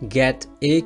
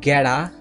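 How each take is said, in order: First: The middle consonant is a clear t. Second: The middle consonant is a soft flapped d.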